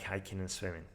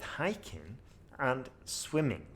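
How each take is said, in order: First: Hiking and swimming are said flat, without emphasis. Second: Hiking and swimming are said with rising intonation. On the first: The speaker calls it wrong. "Ugh, it's horrible" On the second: The speaker calls it right. "if I put a rising intonation on hiking and swimming"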